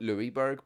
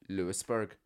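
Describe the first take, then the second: First: The first part sounds like the name Louis. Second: The first part sounds like the name Lewis. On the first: It follows the spelling of the name. "So I always call it Louisburg because it is spelled as Louis" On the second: It is how local people say it. "But they pronounce it Lewisburg"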